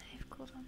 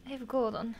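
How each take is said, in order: First: Barely audible whisper of I have gold on; softer whisper. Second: Whisper. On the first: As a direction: breathe it out even softer. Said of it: "repeated softer whisper". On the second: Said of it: "whispered reassurance". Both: Real, not acted.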